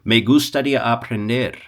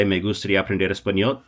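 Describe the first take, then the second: First: "Me gustaría aprender" said smoothly in Spanish, rolled together; Spanish demo. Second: "Me gustaría aprender español" run together fast; quick flowing demo. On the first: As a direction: say "Me gustaría aprender" as one flowing Spanish phrase. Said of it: "That works". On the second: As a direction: rattle off "Me gustaría aprender español" in one breath. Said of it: "Is it magnetic to say". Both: Shown as a demonstration.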